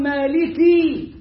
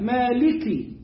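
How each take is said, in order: First: مالكي with the last "i" dragged into "kee"; overlong final vowel. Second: مالكي ending on a short, clear "ki"; short final kasra. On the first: Teacher warns learners what not to say, overstretched kasra. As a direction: stretch the end of مالكي far too long. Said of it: "ولا تقل مالكي". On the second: Teacher shows the vowel on the kaf, brief kasra. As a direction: say مالكي with a light alif and brief "i". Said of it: "تراعي إن هي مكسورة الكاف". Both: Shown as a demonstration.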